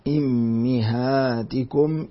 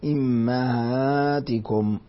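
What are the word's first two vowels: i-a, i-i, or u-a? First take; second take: i-i; i-a. First: The first vowel is i, the second i. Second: The first vowel is i, the second a. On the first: "قرأها حمزة إمهاتكم بكسر الهمزة والميم" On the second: "بكسر الهمزة وفتح الميم إمهاتكم"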